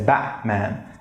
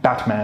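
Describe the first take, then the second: First: The t becomes a glottal stop before the m. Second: The t is fully released before the m. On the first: The speaker calls it right. "We say Batman. It's just like a zonam" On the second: The speaker calls it wrong. "that's completely unnatural"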